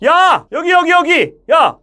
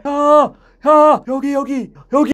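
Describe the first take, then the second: First: Loud, high call to someone distant; urgent, projected hail; calling far away. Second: High call that never gets sent out; misdirected hail, fading in strength; held-back calling. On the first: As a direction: holler across a distance, sending the voice forward. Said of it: "멀리 있는 사람 부를 땐". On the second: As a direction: call out but keep the sound back inside. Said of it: "이렇게 하는 사람은 아마 안 계실 거예요". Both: Shown as a demonstration.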